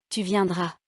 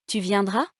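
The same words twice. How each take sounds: First: Viendras dropping at the end; falling statement. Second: Viendras swooping up at the end; rising question. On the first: Teacher demonstrating intonation descendante, falling statement on viendras. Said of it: "ou descendante". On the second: Teacher demonstrating intonation montante, rising question on viendras. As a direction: ask Tu viendras, climbing on viendras. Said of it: "Faites attention à l'intonation montante". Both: Shown as a demonstration.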